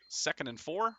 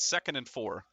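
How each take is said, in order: First: It is said tentatively, without conviction. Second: It is said firmly, with conviction. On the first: The speaker calls it wrong. "I should say that with more conviction" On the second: The speaker calls it right. "with more conviction"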